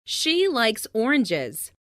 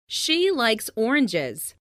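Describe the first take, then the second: No difference in how they are said.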